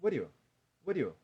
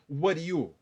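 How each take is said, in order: First: "what are you" blurred into "wariyo"; loose, easy "what are you"; relaxed run-together. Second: "what are you" with each word distinct; tense, separated "what are you"; too careful. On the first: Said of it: "como eu tô falando tranquilo". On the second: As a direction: pronounce "what are you" fully, louder. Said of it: "eu não tô falando what are you?". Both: Shown as a demonstration.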